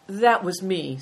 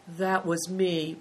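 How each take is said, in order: First: Put-on louder, prompt young culprit's reply; lightly voiced boy speaking up; boy owning up. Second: Slow, understated confession; reluctant admission. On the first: Boy answers the abbot about the carriage, owning up promptly. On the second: Second boy confesses to the abbot, admitting it slowly. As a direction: own up slowly, lightly acted. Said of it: "Big Tiger admitted". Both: A narrator's reading.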